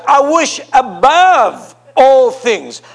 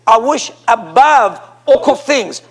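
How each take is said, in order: First: ABOVE ALL THINGS drawn out slowly; slow emphatic reading. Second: "I wish above all things" said slowly again; slow stressed repeat; repeated slow emphasis. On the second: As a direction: repeat it slowly, pressing each word. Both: Shown as a demonstration. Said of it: "And now watch here".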